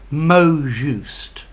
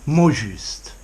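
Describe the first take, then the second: First: It is pronounced with English sounds. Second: It is pronounced with French sounds. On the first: "But I think you could probably say" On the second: "I would pronounce these words in French"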